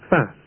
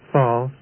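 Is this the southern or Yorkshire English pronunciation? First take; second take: Yorkshire; southern. First: It is said with a Yorkshire English vowel. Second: It is said with a southern English vowel. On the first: "are pronounced in Yorkshire and elsewhere as" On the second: "Southern English"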